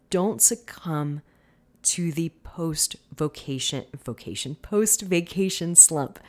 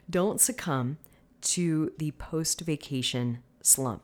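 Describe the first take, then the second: First: The p sounds burst out strongly and pop. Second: The p sounds are softened and held back. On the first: The speaker calls it wrong. "let me try that again" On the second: The speaker calls it right. "I was trying so hard not to like put an emphasis on my P"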